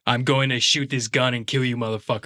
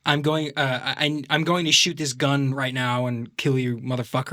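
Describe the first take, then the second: First: Australian doing American, back in the throat; American accent kept out of the nose; throaty Aussie-tinged American; Hugh Jackman. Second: American action-film line through the nose; lightly put-on nasal American; American accent. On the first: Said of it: "It's still in the back of his throat". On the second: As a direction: play an American movie tough guy. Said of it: "they talk through their nose". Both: Shown as a demonstration.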